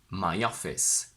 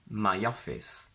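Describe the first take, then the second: First: A small y sound links the two words. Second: A small y sound links the two words.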